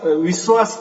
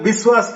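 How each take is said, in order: First: The word begins with a v sound. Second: The word begins with a b sound. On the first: This is how it is said in Maharashtra. "हमारे महाराष्ट्र में विश्वा विश्वास कहते हैं" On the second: This is how it is said in other regions. "वहाँ उसको ब कर देते हैं"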